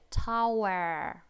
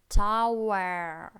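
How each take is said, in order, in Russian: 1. Слово заканчивается слышимым звуком r. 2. Слово заканчивается слышимым звуком r.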